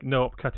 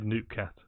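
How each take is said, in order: First: The name is split into two parts. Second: The name is run together as one word. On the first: This is how the streamer wants it read. The speaker calls it right. "I think no opcat is the correct pronunciation" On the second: This is how the voice assistant read it. The speaker calls it wrong. "it said noopcat"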